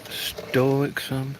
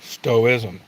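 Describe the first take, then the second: First: "stoicism" sounded out tentatively with a hard k, "STOH-ick-sum"; unsure pronunciation. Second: "Stoicism" said as STOH-iz-um, without the k; corrected pronunciation. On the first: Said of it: "how do you pronounce it?". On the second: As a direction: say "Stoicism" as STOH-iz-um, dropping the middle consonant. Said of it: "How do you pronounce that". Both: Real, not acted.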